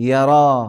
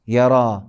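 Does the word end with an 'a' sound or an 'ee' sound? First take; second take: a; a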